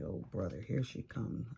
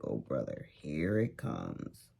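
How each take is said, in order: First: Lower, fed-up sigh of a line; bracing for a complaining neighbor, weary; weary groan. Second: Much lower and slow, dragged-out dread; seeing Susie coming again, drawn-out weary groan. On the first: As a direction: dread the complainer coming. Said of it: "you're just like". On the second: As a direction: sink into the dread. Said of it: "You're like". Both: Retold or imitated.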